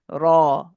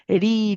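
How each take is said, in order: First: The r is heavy, with the tongue back raised. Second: The r is light, made with the tongue front. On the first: "the heavy ra" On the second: "nice and light"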